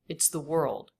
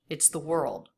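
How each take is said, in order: First: It is contracted into a single syllable. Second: The same.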